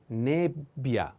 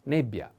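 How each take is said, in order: First: Nebbia slowly, holding the double b; slow double consonant. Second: Said in the usual way. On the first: Shown as a demonstration. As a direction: split nebbia as neb-bia for a learner. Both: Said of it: "pay attention to this double consonant".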